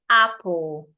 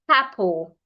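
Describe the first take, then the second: First: The vowel starts cleanly with no H sound. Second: An H sound is added before the vowel. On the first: The speaker calls it right. "Just say apple" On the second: The speaker calls it wrong. "you hear them say something like apple. ... That is wrong"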